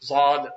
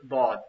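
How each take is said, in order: First: The letter is said with a subcontinent pronunciation. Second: The letter is said with an Arabic pronunciation. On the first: The speaker calls it wrong. "he's slowing up the letter based on his language" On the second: The speaker calls it right. "you have to pronounce it Bod"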